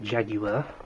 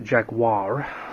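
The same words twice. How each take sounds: First: It is said with a British pronunciation. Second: It is said with an American pronunciation. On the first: "We call it" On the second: "the Americans pronounce it"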